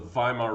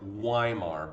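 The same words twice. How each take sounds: First: The name begins with a V sound. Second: The name begins with a W sound. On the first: The speaker calls it right. "W's are pronounced as V's in German" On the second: The speaker calls it wrong. "I know it looks like Weimar"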